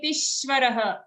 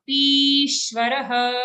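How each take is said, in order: First: Tishvarah with a short ti; wrong tishvarah. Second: Tishvarah slow, ti held long. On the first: Teacher showing the wrong tishvarah, short ti. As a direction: clip the ti of tishvarah. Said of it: "Don't say tishvarah". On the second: Teacher modelling Tishvarah, long ti. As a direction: stretch the ti of Tishvarah. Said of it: "here it's a dirgha". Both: Shown as a demonstration.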